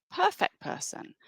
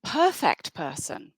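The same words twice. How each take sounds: First: High, soft mock-admiring "Perfect person"; ironic echo. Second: Said in the usual way. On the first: Shown as a demonstration. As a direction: say it high and sarcastic, as if faking praise.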